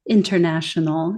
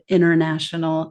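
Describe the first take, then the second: First: The middle T is clearly pronounced. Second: The middle T is dropped or softened. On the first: "I'm being careful to say international" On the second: "instead of"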